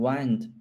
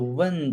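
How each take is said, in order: First: It is said with the verb's pronunciation. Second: It is said with the noun's pronunciation. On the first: It means to roll something around itself. "pronunciation is a little different for the noun and the verb" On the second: It means moving air. "pronunciation is a little different for the noun and the verb"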